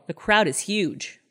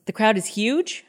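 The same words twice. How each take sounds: First: "The crowd is huge" stated as an upbeat claim, drawn out and slow with a falling end; mimicking Scott. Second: "The crowd is huge?" echoed back with a rising, questioning end; mimicking Amber's disbelief. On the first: Host retelling the husband's phone lie, slow mock-cheerful statement. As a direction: voice the husband's cheerful fake report from Paris. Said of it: "And Scott goes". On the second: Host retelling the girlfriend's reply, mock incredulous echo. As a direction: echo his words back as a doubtful question. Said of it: "Amber goes".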